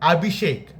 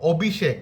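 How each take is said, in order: First: The name is said with Hindi pronunciation. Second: The name is said with Bengali pronunciation. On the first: "হিন্দিতে বলে" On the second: "বাংলাতে বলে"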